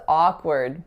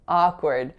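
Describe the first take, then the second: Both takes have the same delivery.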